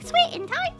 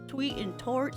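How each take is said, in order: First: It is said at a very high pitch. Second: It is said at a very low pitch.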